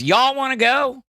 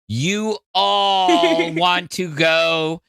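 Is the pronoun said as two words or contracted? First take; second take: contracted; two words. First: The pronoun is contracted into one syllable. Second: The pronoun is said as two full words. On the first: The speaker calls it right. "It's y'all want to go?" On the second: The speaker calls it wrong. "it just sounds weird"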